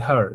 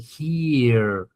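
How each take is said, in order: First: The vowel sounds like the one in 'her'. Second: The vowel sounds like the one in 'here'. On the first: The speaker calls it wrong. "Some people, they say her. You don't say her for this one" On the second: The speaker calls it right. "So you're going to pronounce it as E. You're going to say here"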